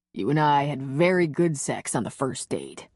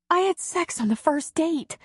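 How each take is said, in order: First: Slightly lower, lightly voiced man; hero's voice. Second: Much higher, lightly voiced woman; heroine's voice. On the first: Hero reassuring the heroine, lightly lower man's voice. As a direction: drop a little into the hero, amused. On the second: Heroine marveling to her lover, higher woman's voice. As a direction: lift into the heroine's voice, a touch incredulous.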